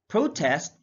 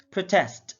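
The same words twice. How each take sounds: First: PROtest, first syllable stressed; careful demo of PROtest. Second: ProTEST, second syllable stressed; careful demo of proTEST. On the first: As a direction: say "protest" with a long PRO. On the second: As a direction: say "protest" with strong TEST. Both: Shown as a demonstration. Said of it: "pronounce it differently".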